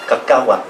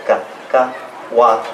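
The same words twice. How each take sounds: First: Said in the usual way. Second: Cacahuat broken into ca, ca, huat; real slow. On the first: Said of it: "So try it that way". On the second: Shown as a demonstration. Teacher breaks Cacahuat down slowly for learners. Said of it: "I'll say it real slow".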